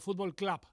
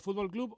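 First: The name is said with an English accent. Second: The name is said with a Spanish accent.

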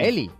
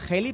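First: The name starts directly with a vowel. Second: The name starts with an audible h sound. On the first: "él en la nota de voz lo pronunciaba Eli" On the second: "Se debe pronunciar Heli"

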